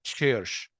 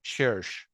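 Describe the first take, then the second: Both takes have the same delivery.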